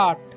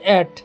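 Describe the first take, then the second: First: The vowel sounds like 'ah' in 'father'. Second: The vowel sounds like 'eh' in 'bed'. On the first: The speaker calls it right. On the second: The speaker calls it wrong.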